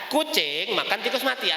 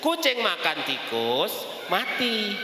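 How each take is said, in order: First: It is said without a break between words. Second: There is a pause after the word tikus. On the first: The cat eats a mouse that is already dead. "artinya kucingnya makan tikus yang dalam keadaan sudah mati" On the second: The cat eats the mouse and the cat dies. "Kucingnya yang mati"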